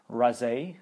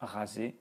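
First: The R is a hard English-style R. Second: The R is a soft French R. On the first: The speaker calls it wrong. "You would say maybe raser" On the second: The speaker calls it right. "instead of raser"

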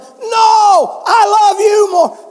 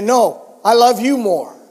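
First: It is yelled loudly. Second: It is said at a normal volume.

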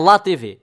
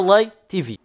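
First: LA is said as one Portuguese syllable 'lá'. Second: LA is spelled out with English letter names. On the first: The speaker calls it wrong. "Não é Lá TV" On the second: The speaker calls it right. "É LA TV. Americanas, estão a ver?"

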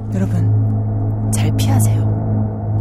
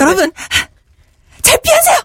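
First: It is said in a low, deep tone. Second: It is said urgently, almost angrily.

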